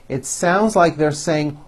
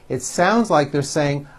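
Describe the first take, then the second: No difference in how they are said.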